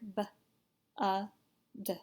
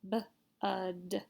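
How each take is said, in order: First: The sounds are said slowly, spaced apart. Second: The sounds are said faster, closer together.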